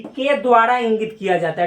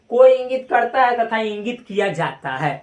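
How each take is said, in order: First: के द्वारा leaned on firmly, the rest of the phrase even; के द्वारा पर पूरा ज़ोर; stress on के द्वारा. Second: Said in the usual way. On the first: Shown as a demonstration. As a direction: hit के द्वारा as the key words. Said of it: "हम पूरा जोर दिए कि". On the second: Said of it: "ऐसे भी बहुत लोग पढ़ता है".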